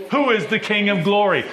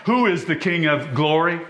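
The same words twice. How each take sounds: First: Excited. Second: Said in the usual way. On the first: Acted. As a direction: call the question out with rising fervour.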